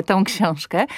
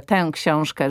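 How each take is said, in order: First: „tą” z samogłoską ą na końcu; ą zamiast ę. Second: „tę” z samogłoską ę na końcu, nie ą; końcowe ę. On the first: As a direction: powiedz „tą książkę”, z ą w „tą”. (błędne „tą” z ą zamiast ę) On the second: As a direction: powiedz „tę książkę”, z ę w „tę”. (poprawne „tę” z ę) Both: Shown as a demonstration. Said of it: "a nie tą książkę".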